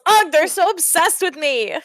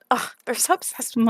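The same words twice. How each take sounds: First: High-pitched, theatrical exasperation; exasperated character complaint. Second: Diva hair-flip. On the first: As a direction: complain as the put-upon star. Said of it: "Beast Scales". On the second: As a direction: toss it off like a vain diva. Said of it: "flips his hair to the side". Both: Acted.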